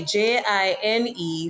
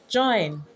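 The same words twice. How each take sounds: First: "jine" with a long I; Patois pronunciation. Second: "join" with the oi vowel; English pronunciation. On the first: Explaining Patois spelling, "jine" said with long I. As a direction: say "jine" to rhyme with "line". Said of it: "for jine instead of join". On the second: Contrasting English with Patois, "join" with oi. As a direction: say "join" with a rounded oi glide. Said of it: "instead of join". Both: Shown as a demonstration.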